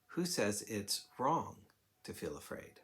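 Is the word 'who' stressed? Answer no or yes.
no. The stress falls on a word other than 'who'. "what happens if we change the emphasis of the question to"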